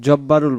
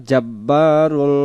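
First: জব্বারুল with a short rounded o after জ; teacher showing the mistaken জব্বারুল; wrong pronunciation. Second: জাব্বারুল with one alif length of long a after জ; teacher modelling the right জাব্বারুল; correct pronunciation. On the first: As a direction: say জব্বারুল clipped, no long a after জ. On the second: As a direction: stretch the a in জাব্বারুল by one beat. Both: Shown as a demonstration. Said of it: "জব্বারুল বলবো না".

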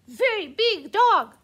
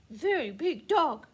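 First: Much louder taunt; shouting the name-calling back; louder insult. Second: Said in the usual way. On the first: Acted. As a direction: raise the stakes in the squabble. Trading insults back and forth.

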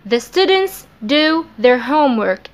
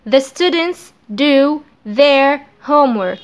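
First: Said in the usual way. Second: The students do their homework read slowly; slow dictation. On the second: Shown as a demonstration. (نطق بطيء)

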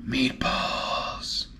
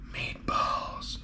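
First: Airy, gasped-out word of delight; breathless gasp. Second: Soft unvoiced whisper. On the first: Vlogger spotting meatballs, gasped breathless delight. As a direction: breathe it out in amazement. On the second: Vlogger savouring the meatballs, hushed whisper. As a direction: whisper it like a secret treat. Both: Real, not acted.

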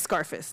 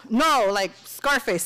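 First: Said in the usual way. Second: Slow, weighted "Scarface" pressed out; insisting. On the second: Shown as a demonstration. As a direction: lean on "Scarface", drawing it out. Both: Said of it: "No, like Scarface, Scarface".

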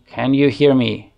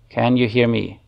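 Both takes have the same delivery.

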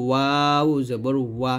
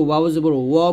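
First: "ওয়াও" drawn out, "ওয়া" with open "aa"; correct open wa. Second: Final "ওয়া" rounded to "wo"; wrong rounded wa. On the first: Teacher models correct reading, open "ওয়া". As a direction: stretch "ওয়াও", end on clear "waa". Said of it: "বলতে হবে". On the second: Teacher imitates common mistake, rounded "ওয়া". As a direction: say "ওয়া" as "waw", vowel rounded. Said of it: "এটা ভুল উচ্চারণ". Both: Shown as a demonstration.

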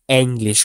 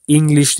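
First: English with an open E onset, 'eng-lish'; German pronunciation. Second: English with a short i onset, 'ing-glish'; English pronunciation. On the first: Teacher models the word for learners, German E pronunciation. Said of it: "Gördüğünüz gibi E harfi". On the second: Teacher shows learners what not to say, English-style pronunciation. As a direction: say English the English way, starting 'ing'. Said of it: "English değil". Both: Shown as a demonstration.

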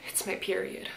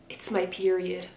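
First: "It's my period" breathed in a full whisper; dramatic whisper. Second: "It's my period" read softer, barely whispered; a hushed confession of "It's my period". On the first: Shown as a demonstration. Showing how dramatic the heroine sounds, in a whisper. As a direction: whisper it like a dark secret. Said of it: "in the way she says it". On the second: A narrator's reading. Reading the heroine's line, in a soft hush. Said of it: "she whispered".

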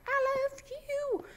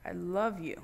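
First: Much higher, slow squeaky reply; toy-like high wood voice; voicing the wood. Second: Said in the usual way. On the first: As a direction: give the wood a tiny high voice. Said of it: "wood's gonna be like". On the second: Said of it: "Just gonna be like".

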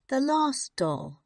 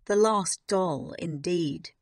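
First: Put-on high, wistful child's voice; gently mournful, higher voice; soft sadness. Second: Firm, scornful adult retort. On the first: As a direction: say it sadly, pitched well up. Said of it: "she said softly". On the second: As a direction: throw the words back at the child. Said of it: "Miss Minchin said". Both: A narrator's reading.

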